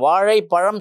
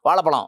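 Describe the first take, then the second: First: It is said with the retroflex zh sound. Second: It is said with a plain l sound. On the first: The speaker calls it right. "சொல்ல மாட்டேன்றான்" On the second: The speaker calls it wrong. "அப்படி தான் சொல்கிறாங்க"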